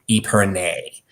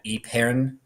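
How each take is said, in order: First: It is said with an American pronunciation, ending 'nay'. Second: It is said with a French pronunciation. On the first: "the American pronunciation is épergne, not even nie. It's just nay" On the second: "that's the French pronunciation"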